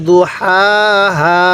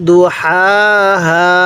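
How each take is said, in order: Both takes have the same delivery.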